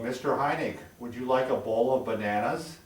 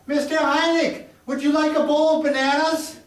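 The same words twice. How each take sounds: First: It is spoken at a lower, deeper pitch. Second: It is spoken loudly at a high pitch. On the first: An older listener can hear it well. The speaker calls it right. "in a lower tone" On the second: An older listener cannot hear it well. The speaker calls it wrong. "their voice goes higher when they speak loud"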